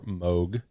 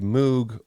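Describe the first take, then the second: First: It is said with the American pronunciation. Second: It is said with the British pronunciation. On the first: "as they call them in the United States" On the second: "I prefer the British pronunciation"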